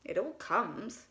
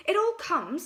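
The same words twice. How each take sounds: First: Stern. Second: Higher, louder cross reply; cross Pooh. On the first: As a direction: lay down the law. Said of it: "said Rabbit sternly". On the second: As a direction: snap back at Rabbit. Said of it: "said Pooh crossly". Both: A narrator's reading.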